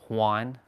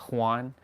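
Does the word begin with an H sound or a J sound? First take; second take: H sound; H sound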